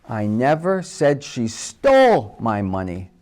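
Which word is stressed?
stole. The stress is on the word stole.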